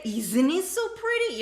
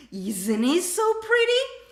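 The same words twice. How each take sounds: First: Pretty dropped down at the end; falling confirmation. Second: Pretty swept up high and loud; rising question. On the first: Teacher contrasts a sure falling question. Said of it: "you're saying, "It is pretty". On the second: Teacher demos an excited rising question. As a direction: ask Isn't it so pretty with a big climb on pretty. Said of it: "you have to raise the intonation". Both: Shown as a demonstration.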